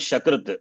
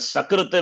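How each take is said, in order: First: The word begins with an sh sound. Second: The word begins with a plain s sound. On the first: It means fecal matter. The speaker calls it wrong. "Shakrita is fe- fecal matter" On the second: It means once. The speaker calls it right. "Sakrita is once"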